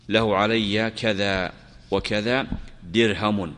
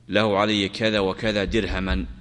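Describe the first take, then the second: First: The last word ends in a short u vowel. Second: The last word ends in a short a vowel. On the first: "بالرفع" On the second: "أو بالنصب"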